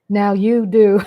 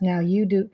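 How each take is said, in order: First: Louder, laughing through it; laughing shout. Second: Said in the usual way. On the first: Real, not acted. Telling viewers they know her now, laughing. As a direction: blurt it out with a laugh.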